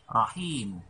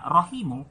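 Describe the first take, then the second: First: The second syllable has a long vowel. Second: The second syllable has a short vowel. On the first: "makanya dibaca dua harakat" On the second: "Jadi dibaca satu harakat"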